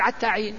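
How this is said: It is said the way the tribal dialect says it. This is how the dialect speaker says it. "ذا صاحب اللغة هذه يقول"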